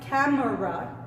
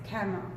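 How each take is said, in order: First: The middle vowel is pronounced, giving three syllables. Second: The middle vowel is dropped, giving two syllables. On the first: The speaker calls it wrong. "No es camera" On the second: The speaker calls it right. "No suena la E"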